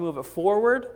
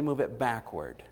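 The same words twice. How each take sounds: First: FORWARD pushed up loud, rising question; quick, louder offer ending up on "forward"; stress on forward. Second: BACKWARD falling, closing the choice; quick offer settling down on "backward"; stress on backward. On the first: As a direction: lift "forward" high as the first option. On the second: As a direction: drop the pitch on "backward" as the second option. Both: Acted. Offering Hezekiah a choice of signs.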